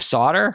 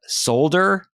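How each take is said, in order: First: The word is said without the l sound. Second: The word is said following its spelling, with l. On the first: This is how it is said here. The speaker calls it right. "instead of solder" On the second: This is how the voice actors said it. The speaker calls it wrong. "they kept saying solder"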